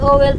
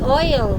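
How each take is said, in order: First: It is said with two syllables. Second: It is said with one syllable. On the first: The speaker calls it wrong. "Owel pala is oil" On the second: The speaker calls it right. "Owel pala is oil"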